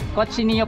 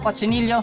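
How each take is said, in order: First: The double L is said as a Y sound. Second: The double L is said as an L sound. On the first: "pansinin po natin ang dalawang L ay pinopronounce as Y" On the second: "okay na rin yun"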